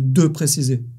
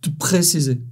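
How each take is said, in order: First: The e of 'de' is pronounced. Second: The e of 'de' is dropped. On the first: "au lieu de"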